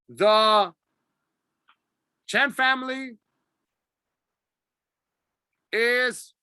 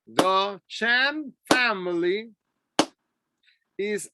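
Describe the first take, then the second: First: It breaks off with a halting stop. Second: It flows steadily without stopping. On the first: The speaker calls it wrong. "Don't say the Chen family is, no" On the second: The speaker calls it right. "Try to be steady"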